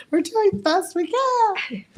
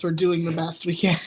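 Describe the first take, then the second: First: Much higher, drawn-out squeal; high-pitched mock plea. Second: Said in the usual way. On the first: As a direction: plead it high and slow, half laughing. Mock plea repeated amid laughing fit.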